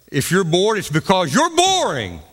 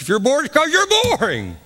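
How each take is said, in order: First: It is said with some emphasis. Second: It is said with the most force and volume.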